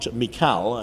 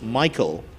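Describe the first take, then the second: First: The name sounds like 'Mikal', following its spelling. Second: The name sounds like the usual 'Michael'. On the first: The speaker calls it wrong. "and not Mikal, as is often mispronounced" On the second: The speaker calls it right. "it's pronounced Michael"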